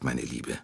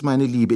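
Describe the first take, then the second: First: Meine Liebe dropped low and much softer as a goodnight; a soft, lowered meine Liebe trailing into goodnight; softer closing endearment. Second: Meine Liebe said high and a little louder as an eager aside; fussing lady's raised, eager meine Liebe; high endearment. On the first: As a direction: let meine Liebe fall away quietly. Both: Acted. Mrs Hubbard voiced by narrator.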